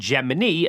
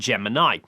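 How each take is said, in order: First: It is pronounced the way NASA said it. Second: It is pronounced like the star sign name. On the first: This is the official name as used in the archive footage. "NASA referred to it as Gemini" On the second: This is the everyday pronunciation of the word. "like the star sign"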